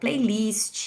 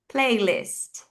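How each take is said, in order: First: It is said with a Brazilian Portuguese accent. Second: It is said with an English accent. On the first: "é assim que a gente pronuncia uma palavra em inglês aqui" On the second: "como a teacher pronuncia diferente essas palavras"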